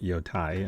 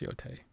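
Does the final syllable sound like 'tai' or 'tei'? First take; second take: tai; tei. First: The final syllable sounds like 'tai'. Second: The final syllable sounds like 'tei'. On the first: The speaker calls it wrong. "I think I've been calling it Yotai in the first episode" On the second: The speaker calls it right. "but it's Yotei"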